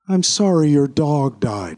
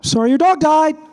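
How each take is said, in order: First: The voice falls at the end. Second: The voice rises at the end.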